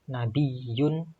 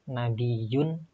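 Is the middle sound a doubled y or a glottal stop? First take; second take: doubled y; doubled y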